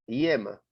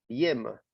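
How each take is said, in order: No difference in how they are said.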